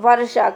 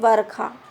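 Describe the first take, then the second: First: The middle consonant is pronounced as a 'sh' sound. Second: The middle consonant is pronounced as a 'kh' sound. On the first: The speaker calls it right. "दोनों को एक ही बोलते हैं, शा शा" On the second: The speaker calls it wrong. "खा के रूप में नहीं"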